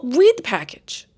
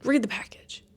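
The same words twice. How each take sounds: First: Emphatic advice. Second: Whispered repeat. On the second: Telling viewers in a whisper to check labels. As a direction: hush it like a secret tip. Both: Shown as a demonstration.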